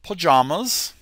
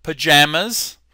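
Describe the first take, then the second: First: "pajamas" with an open "ah" in the middle; British "pajamas", long middle vowel; British pronunciation. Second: "Pajamas" with the vowel of "jam"; louder American "Pajamas"; American pronunciation. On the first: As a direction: say "pajamas" the British way, puh-JAH-muz. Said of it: "English pronunciation". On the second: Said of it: "Kind of the same". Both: Shown as a demonstration.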